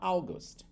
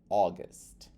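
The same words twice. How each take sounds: First: The first vowel glides like 'ah-oo'. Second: The first vowel is a plain 'oh' sound. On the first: This is how a Brazilian learner tries to say it. The speaker calls it wrong. "o brasileiro vai tentar falar August" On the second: This is the actual English pronunciation. The speaker calls it right. "se você substituir esse A U por O, ele vira August"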